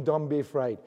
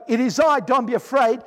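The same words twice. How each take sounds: First: A soft, hushed "Don't be afraid", with "Don't" a little lower and quieter; gently calm the frightened disciples, almost murmuring; quiet reassurance. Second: "It is I, don't be afraid" said out loud and firmly, with "don't" stressed; firm call. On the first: Jesus reassures, voiced. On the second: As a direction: call across the water to the frightened disciples. Jesus calls to disciples, voiced. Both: Pretend.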